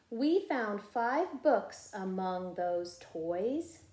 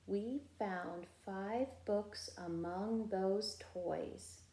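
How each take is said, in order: First: Slow, clear and a touch louder: we found five books among those toys; model reading. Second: Slow, softer repeat of We found five books among those toys; echo reading. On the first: Teacher modeling the sentence for first graders to echo. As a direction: read it out for the class to copy. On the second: Teacher voicing the class's echo of the sentence. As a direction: say it back quietly as the echo. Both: Shown as a demonstration. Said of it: "you be my echo".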